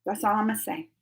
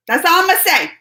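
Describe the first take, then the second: First: Much softer, under the breath; muttered aside. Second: Louder and higher, pointed; emphatic repeat. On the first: Streamer to chat, first under the breath, much softer. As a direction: say it half to yourself, much softer. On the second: Streamer to chat, repeating it louder and higher for emphasis. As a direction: say it out loud this time, louder and higher. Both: Real, not acted.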